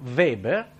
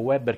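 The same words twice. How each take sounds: First: The name begins with a V sound. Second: The name begins with a W sound. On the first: The speaker calls it right. "con la V" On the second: The speaker calls it wrong. "non mi arrivate con Weber"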